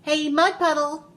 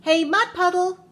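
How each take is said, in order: First: Loud, high challenge; raised, carrying shout; yelling. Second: Big high, loud shout; very loud, high call-out; yelling even louder. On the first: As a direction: call the puddle out loudly. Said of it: "so she yelled". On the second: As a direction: holler it with everything you have. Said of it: "she yelled even louder". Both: A narrator's reading.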